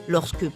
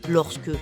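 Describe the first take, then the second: No difference in how they are said.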